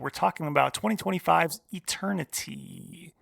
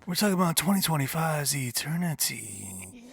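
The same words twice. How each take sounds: First: It is said in an ordinary speaking voice. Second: It is said in a put-on sexy voice.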